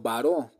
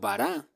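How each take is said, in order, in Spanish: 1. La palabra termina en la vocal 'o'. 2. La palabra termina en la vocal 'a'. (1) "otra escuela rabínica lo vocalizó como baró" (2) "una escuela en particular lo vocalizó como bará"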